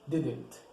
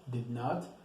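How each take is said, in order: First: It is said as one contracted word. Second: It is said as two separate full words. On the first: "we pronounce it as didn't" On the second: "the auxiliary of do not and does not ... is did not"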